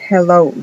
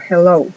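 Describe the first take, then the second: No difference in how they are said.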